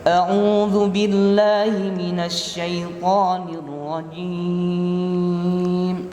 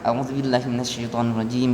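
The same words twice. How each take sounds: First: The phrase is recited slowly and gently. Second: The phrase is recited quickly and rushed. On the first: The speaker calls it right. "cara bacanya pelan ya" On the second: The speaker calls it wrong. "Jangan langsung"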